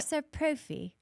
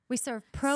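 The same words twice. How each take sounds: First: It is said in a put-on British accent. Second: It is said in an ordinary American accent.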